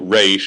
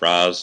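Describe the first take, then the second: First: The vowel sounds like the one in 'days'. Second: The vowel sounds like the one in 'jazz'. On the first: The speaker calls it wrong. "quote unquote" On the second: The speaker calls it right. "It's Raz, damn it"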